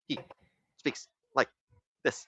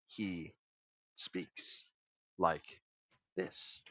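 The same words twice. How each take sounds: First: It is said fast, pauses still there. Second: It is said slowly with long pauses.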